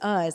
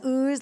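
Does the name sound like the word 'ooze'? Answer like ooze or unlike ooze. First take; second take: unlike ooze; like ooze. First: The name is said unlike the word ooze. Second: The name is said like the word ooze. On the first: The speaker calls it right. "of course you know it is Uz" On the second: The speaker calls it wrong. "I mispronounced it for most of its composition as ooze"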